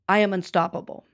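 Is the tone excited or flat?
flat. It is said plainly, without excitement.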